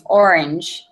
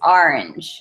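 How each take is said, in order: First: It is said in a Californian accent. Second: It is said in a New Jersey accent. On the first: "in California it's orange" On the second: "In New Jersey, it's orange"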